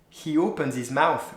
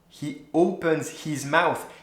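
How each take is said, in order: First: The H sounds are dropped and words linked. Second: Every H sound is clearly pronounced. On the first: The speaker calls it right. "It's a, a lot better already" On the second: The speaker calls it wrong. "how it sounds if I pronounce the H"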